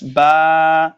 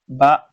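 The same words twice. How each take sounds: First: The vowel is drawn out like the letter name. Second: The vowel is short like a fatha sound. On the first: It names the letter itself. The speaker calls it wrong. "not ba like the name of the letter" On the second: It is the letter's sound with fatha. The speaker calls it right. "when ba carries fatha, the sound is going to be ba"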